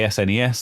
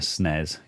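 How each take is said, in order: First: The name is said the American way. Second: The name is said the British way. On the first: "why are you saying it the American way?" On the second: "if you say things the British way"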